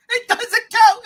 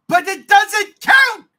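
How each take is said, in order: First: Higher, louder repeat; repeated insistence. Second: Higher and louder, slow and emphatic; loud insistence. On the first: Host repeating his objection, still loud. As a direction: press the point again. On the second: Host arguing with his co-host, loud and insistent. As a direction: hammer home that it doesn't count. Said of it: "insisting loudly". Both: Real, not acted.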